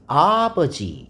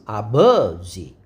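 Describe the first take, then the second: First: The stress is on the first syllable. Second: The stress is on the second syllable. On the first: "아에가 강세가 있을 수 있습니다" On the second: "버에가 강세가 있으면"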